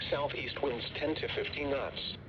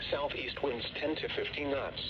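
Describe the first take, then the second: No difference in how they are said.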